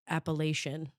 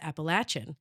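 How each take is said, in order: First: The word is pronounced the Midwestern way. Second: The word is pronounced the Southern way. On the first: This is how it was learned growing up in the Midwest. The speaker calls it wrong. "when I grew up, I learned the word as Appalachian" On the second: This is how everyone in the South says it. The speaker calls it right. "to everybody here in the South pronounced Appalachian"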